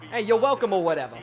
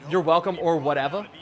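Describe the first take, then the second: First: Italian-American Jersey greeting, falling at the end; Italian New Jersey accent. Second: Said in the usual way. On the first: Shown as a demonstration. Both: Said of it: "You put a little bit of Italian".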